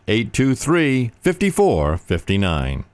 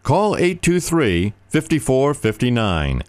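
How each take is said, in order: First: Slow repeat. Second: Slow, high, deliberate number; slow phone number. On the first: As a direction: settle the number slowly. Number repeated. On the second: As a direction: spell out each digit slowly. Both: Acted.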